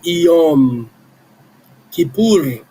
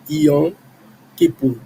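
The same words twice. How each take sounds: First: Yom ends with the lips closed on m. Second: Yom ends in a nasal without closed lips. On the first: The speaker calls it right. "a letra M final tem que ser pronunciada" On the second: The speaker calls it wrong. "as pessoas que falam na igreja falam Yom"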